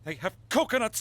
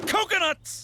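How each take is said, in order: First: Said in the usual way. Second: Higher, punchier coconuts; an exclaimed Coconuts! with a high falling tune; excited exclaim. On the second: Shown as a demonstration. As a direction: burst out with Coconuts! for effect.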